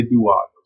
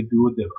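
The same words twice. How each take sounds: First: "duodenum" as doo-AHD-num; du-OD-enum variant. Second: "duodenum" as doo-uh-DEE-num; duo-DEE-num variant. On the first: Teacher showing how some people say it, "duodenum" as doo-AHD-num. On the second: Teacher showing how other people say it, "duodenum" as doo-uh-DEE-num. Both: Shown as a demonstration. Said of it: "Some people say duodenum".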